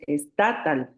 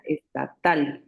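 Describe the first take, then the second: First: Estatal wrongly stressed on the middle TA; wrong penultimate stress. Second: Estatal with the last syllable TAL stressed; stress on final syllable. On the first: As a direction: say es-TA-tal, punching TA. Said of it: "Si fuera grave diríamos". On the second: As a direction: slowly say es-ta-TAL, landing on TAL. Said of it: "la última sílaba es la que suena más fuerte". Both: Shown as a demonstration.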